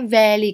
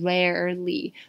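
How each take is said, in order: First: The second R is weak and nearly silent. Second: The second R is strong and clearly curled. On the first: "他们会把那个第二个 R 呢就是几乎有点听不见的感觉" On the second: "美国人会把第二个 R 呢发得很重，就是 rarely"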